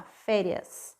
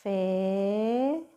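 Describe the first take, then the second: First: Said in the usual way. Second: "Férias" drawn out with a rising tune; slow sounded-out word. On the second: Shown as a demonstration. Teacher modelling "Férias" to pupils, drawn out. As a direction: stretch "Férias" slowly for the class.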